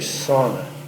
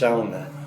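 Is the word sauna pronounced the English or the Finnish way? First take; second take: English; Finnish. First: It is said with an English pronunciation. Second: It is said with a Finnish pronunciation. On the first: The speaker calls it wrong. "if you read it and pronounce it with English phonetics, you get it wrong. You'd say sauna" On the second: The speaker calls it right. "but it's pronounced sauna"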